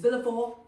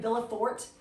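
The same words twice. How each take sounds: First: The final sounds are left silent. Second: The final sounds are pronounced as spelled. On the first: This is the name as actually said in French. The speaker calls it right. "It's Villefort" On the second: This is how the name reads on the page. The speaker calls it wrong. "this guy's name looks like Villefort"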